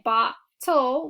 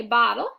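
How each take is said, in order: First: "bottle" split as "bot-TOLL", with a crisp T; over-articulated syllables. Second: Said in the usual way. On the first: Shown as a demonstration. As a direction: sound out "bottle" in two parts, ending in a full "toll". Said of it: "'cause we don't say". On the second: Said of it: "we say bottle".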